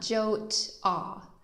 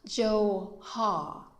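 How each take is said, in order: First: A t sound is heard between the vowels. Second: An h sound is heard between the vowels. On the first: "definitely not Jot-ah" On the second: "not Jo-ha"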